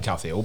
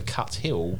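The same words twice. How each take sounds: First: The t and h merge into one th sound. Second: The t and h are pronounced as separate sounds. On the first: This is how people in Scotland say it. "they pronounce the T and the H as a th" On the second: This is how people down south say it. "because it's easier to say"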